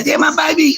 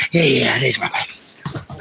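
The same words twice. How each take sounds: First: High excited shout to a dog. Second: Softer, slow doting coo; tender murmur. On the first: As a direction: cry it out with joy at the pup. Thrilled by his dog. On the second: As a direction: settle down and dote on the pup. Tender with his dog. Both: Real, not acted.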